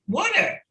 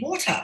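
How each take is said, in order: First: It is said with a North American accent. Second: It is said with a British accent. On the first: "that's not how you said it" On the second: "oh, you mean water?"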